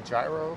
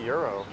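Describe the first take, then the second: First: The word begins with a 'j' sound. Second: The word begins with a 'y' sound. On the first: This is how some other people pronounce it. "some people say gyro" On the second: This is the speaker's own pronunciation. "I say euro"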